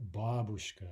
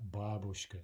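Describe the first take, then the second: First: The word carries its native Russian stress. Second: The same.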